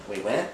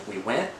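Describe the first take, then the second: No difference in how they are said.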